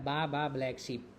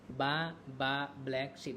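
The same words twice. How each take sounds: First: Said in the usual way. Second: Slow "बा बा black sheep", each word set apart to bring out the ब; stressed B sounds. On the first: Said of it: "तो एक आता है". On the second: Shown as a demonstration. Teacher showing students the repeated ब, "बा बा black sheep" slow and separated. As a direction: space out "बा, बा, black, sheep" slowly, leaning on each opening ब. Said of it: "ब तीन बार आया ना".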